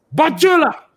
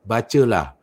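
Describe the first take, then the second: First: It is said forcefully, as a command. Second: It is said flatly, without force.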